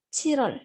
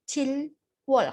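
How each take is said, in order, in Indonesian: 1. Suku katanya menyatu dengan flap r. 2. Setiap suku kata diucapkan terpisah, dengan l lalu w. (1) "jadi dibacanya itu Chirol" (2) "kalau satu-satu"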